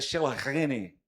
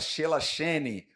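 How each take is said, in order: First: The middle consonant is a throaty 'h' sound. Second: The middle consonant is a soft 'sh' sound. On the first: The speaker calls it right. "mas é Shelahene" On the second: The speaker calls it wrong. "Alguns poderiam falar"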